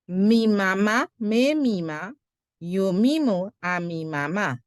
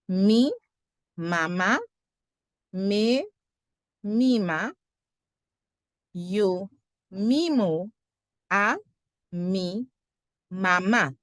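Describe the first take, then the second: First: The phrase is said quickly. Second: The phrase is said slowly. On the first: "Más rápido" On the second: "Más lento, a little slower"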